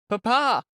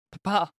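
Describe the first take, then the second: First: Put-on higher, louder child's cry; rising frightened cry. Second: Put-on high, urgent child calling out; frightened child's cry. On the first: A boy cries to his father again, more desperate. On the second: A boy calls out to his father, frightened cry. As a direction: cry out for your father in alarm. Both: A narrator's reading. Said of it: "he cried to his father".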